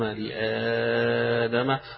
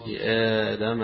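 First: The long vowel is held for six counts. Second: The long vowel is held for two counts. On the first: "وستة" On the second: "حركتين"

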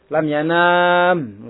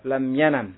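First: The vowel before the final m is long. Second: The vowel before the final m is short. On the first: The speaker calls it wrong. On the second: The speaker calls it right. "Dibuang apanya? Huruf ilahnya"

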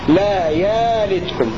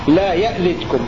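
First: The first vowel is lengthened, with no glottal stop. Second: A glottal stop follows the first vowel. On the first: "همزة مبدلة ألفا" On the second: "بزيادة همزة ساكنة محققة"

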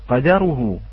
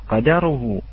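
The two takes are said the same way.

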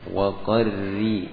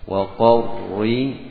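First: The r sound is light and thin. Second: The r sound is heavy and thick. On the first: The speaker calls it right. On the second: The speaker calls it wrong. "Waqarri ini tebal"

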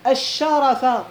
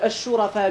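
First: The first vowel is a. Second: The first vowel is u. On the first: It is a verbal noun meaning nobility. "ويجوز أن يقرأ الشرفاء، مصدر" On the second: It is a plural meaning the noble ones. "الشرفاء بالضم"

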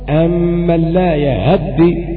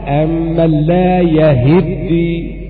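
First: The vowel after h is cut short. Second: The y takes a, and the h takes i. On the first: "بخطف الحركة" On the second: "بفتح الياء وكسر الهاء"

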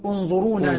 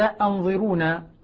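First: The word starts with an 'u' vowel. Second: The word starts with a glottal stop and 'a'. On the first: "بضم الهمزة" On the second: "همزة قطع مفتوحة"

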